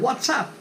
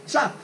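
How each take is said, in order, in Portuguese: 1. Ela é ligada em duas sílabas, wha-tsup. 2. Ela é reduzida a uma sílaba, zap. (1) "fiz a ligação ali" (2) "Às vezes o cara não fala nem WhatsApp"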